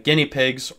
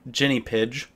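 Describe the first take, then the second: First: The g sounds are hard, as in go. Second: The g sounds are soft, like a j.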